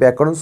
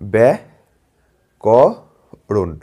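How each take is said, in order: First: The word is said smoothly in one go. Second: The word is split slowly into separate parts.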